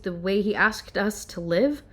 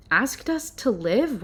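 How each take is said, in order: First: Said in the usual way. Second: Slow, stunned disbelief; incredulous. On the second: Real, not acted. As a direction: repeat it as if you can't believe it. Repeats the phrase in disbelief.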